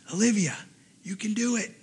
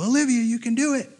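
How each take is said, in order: First: Soft, slightly raised voice close by; hushed encouragement. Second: High-pitched call from the sidelines; imitated cheer. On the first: Retold or imitated. Rider leans down to Olivia, soft encouragement. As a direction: lean in and urge her on softly. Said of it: "leans down and goes". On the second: Another table of friends to Olivia, high cheering call. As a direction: cheer her on from across the street.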